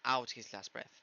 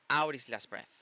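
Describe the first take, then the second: First: The t in out is a clear t. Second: The t in out becomes a quick tap. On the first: "un poco menos común" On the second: "va a cambiar a una top R"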